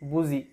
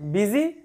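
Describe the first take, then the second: First: The first vowel is an 'oo' sound. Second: The first vowel is an 'ee' sound. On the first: It helps you remember the spelling. "ভুল উচ্চারণ করে মাথায় রাখতে হবে" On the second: It is the normal way to say the word. "আমরা বিজি বলবো"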